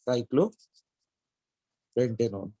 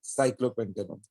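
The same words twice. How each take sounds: First: Cyclopentanone stretched very slowly, syllable by syllable; drawn-out name. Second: Said in the usual way. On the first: Shown as a demonstration. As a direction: drag out cyclopentanone as if writing it on the board.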